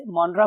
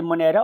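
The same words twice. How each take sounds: First: मोनरा in the shorter form MON-ra; variant pronunciation. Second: मोनेरा with a clear middle "ne"; variant pronunciation. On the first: Teacher citing pronunciations students will hear, मोनरा as MON-ra. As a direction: pronounce मोनरा without the middle "ay" vowel. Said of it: "बहुत से इसे मोनरा बोलते हैं". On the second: Teacher citing pronunciations students will hear, मोनेरा as mo-NE-ra. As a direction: pronounce मोनेरा as mo-NE-ra. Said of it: "अगर आप सुनेंगे जाकर pronunciation". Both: Shown as a demonstration.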